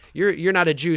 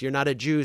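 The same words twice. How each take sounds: First: It is said in a put-on Texas accent. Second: It is said in the speaker's usual accent.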